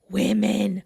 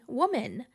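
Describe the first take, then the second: First: The plural is said with its distinct plural vowels. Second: The plural is said like the singular form. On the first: The speaker calls it right. "Now that I know how to say women" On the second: The speaker calls it wrong. "the improper pronunciation of women"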